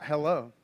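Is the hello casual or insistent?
casual. It is a casual, offhand greeting.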